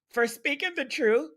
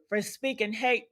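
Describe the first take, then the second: First: Quoting Jeffrey's words back with a sneer; mocking quote. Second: Hate said firmly and falling; correcting stress. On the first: Mocking streamer's words, stress on truth. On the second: Shown as a demonstration. Correcting Jeffrey's phrase, leaning on hate. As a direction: swap in hate with a hard stress.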